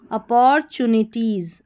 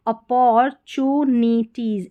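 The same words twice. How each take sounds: First: Said in the usual way. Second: "अपॉर्चुनिटीज" slowly in pieces, a-por, chu, ni, teez; broken into syllables. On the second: Shown as a demonstration. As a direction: sound out "अपॉर्चुनिटीज" part by part with stretched syllables. ("अपॉर्चुनिटीज" को धीरे, तोड़-तोड़ कर बोलें) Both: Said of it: "इस तरीके से तोड़ना है".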